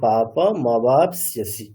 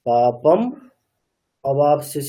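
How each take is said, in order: First: The phrase runs together without any break. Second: The phrase is split with a break between words. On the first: The speaker calls it right. "একসাথেই বলতে হবে" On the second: The speaker calls it wrong. "এরকম বলেছিলে, মানে বিচ্ছেদ করে দিয়েছিলে"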